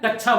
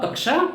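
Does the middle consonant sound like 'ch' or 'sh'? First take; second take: ch; sh. First: The middle cluster is said with a 'ch' sound. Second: The middle cluster is said with a 'sh' sound. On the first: The speaker calls it wrong. "कोई कोई तो इसे जो है कक्षा बोलता है" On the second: The speaker calls it right. "शुद्ध उच्चारण आपका कक्षा आएगा"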